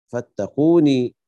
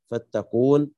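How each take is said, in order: First: فاتقوني slow and louder, ending in long ee; Ya'qub's added ya. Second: Said in the usual way. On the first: Shown as a demonstration. Teacher reading it as Ya'qub does, فاتقوني with drawn-out final ee. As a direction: hold a long ee after the n of فاتقوني. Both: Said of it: "اقرأها يعقوب".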